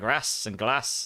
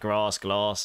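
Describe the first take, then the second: First: It is said in a northern English accent. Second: It is said in a southern English accent.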